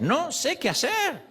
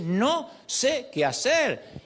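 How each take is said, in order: First: Slow, high, helpless "No sé qué hacer"; higher pleading prayer. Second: Very slow, high, drawn-out "No sé qué hacer"; very slow helpless prayer. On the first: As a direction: pray it slowly, pitched high, at a loss. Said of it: "esta es nuestra oración". (oración lenta y aguda, desamparada) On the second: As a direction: stretch out every word, at a loss. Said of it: "hay que decir". (muy lento y agudo, sin saber qué hacer) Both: Shown as a demonstration.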